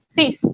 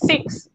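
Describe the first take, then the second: First: It ends with a plain 's' sound, no 'k'. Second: It ends with a 'ks' sound, as in English. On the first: The speaker calls it right. "es sis, como si fuese una S" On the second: The speaker calls it wrong. "se escribe igualito que en inglés, pero no es six"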